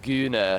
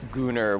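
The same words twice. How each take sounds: First: "gooner" with a fronted, tight oo, no r; imitated British vowel. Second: Said in the usual way. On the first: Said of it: "vowel quality on gooner was weird".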